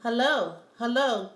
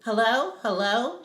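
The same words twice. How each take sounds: First: Lightly voiced African accent; a hint of an African accent, falling hellos; greeting in a mild African accent. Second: Bright, rising excited hello; eager rising greeting. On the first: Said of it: "with his proper African accent". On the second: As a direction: answer a long-awaited call. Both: A narrator's reading.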